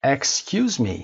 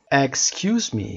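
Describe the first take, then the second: No difference in how they are said.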